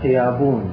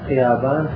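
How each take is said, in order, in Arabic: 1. المقطع الأخير فيه صوت العلة 'oon'. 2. المقطع الأخير فيه صوت العلة 'aan'.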